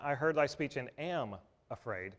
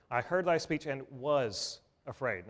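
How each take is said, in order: First: "am" marked as the wrong tense, a little softer; "am afraid" said as the contrast, slightly quieter; stress on AM. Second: "was" leaned on, slow past tense; slow down and stress "was" in "was afraid"; "was afraid" said slowly with weight on "was". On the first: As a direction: set "am" apart as the wrong word in "am afraid". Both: Shown as a demonstration.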